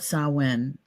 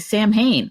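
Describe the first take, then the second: First: It is pronounced differently from its spelling. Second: It is pronounced the way it is spelled. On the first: This is how it is really pronounced. The speaker calls it right. "the correct pronunciation of it" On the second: This is how an English reader would guess it. The speaker calls it wrong. "because we're we're English reading and speaking, right? Um, we would say Sam Hain"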